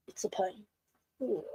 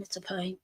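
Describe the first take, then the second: First: "it's a pain" whispered with no voice; soft whispered repeat of "it's a pain". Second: Said in the usual way. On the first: Real, not acted. Repeating the complaint, trailing off.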